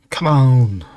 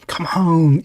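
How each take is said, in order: First: Said in the usual way. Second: Higher, sing-song coaxing come on; cooing come on as if to a child. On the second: Acted. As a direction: coax them gently, pitched up. Coaxing someone to eat.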